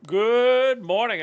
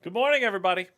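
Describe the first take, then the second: First: Slow, loud, high greeting; drawn-out shout. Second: Big loud hello; loud greeting. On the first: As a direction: stretch the greeting out big. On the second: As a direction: call out good morning. Stream greeting call out. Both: Acted.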